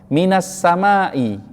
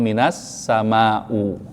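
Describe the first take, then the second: First: The last word ends with an i vowel. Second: The last word ends with a u vowel. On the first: The speaker calls it right. "isimnya saat itu wajib dibaca dengan kasrah" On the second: The speaker calls it wrong. "gak boleh dibaca"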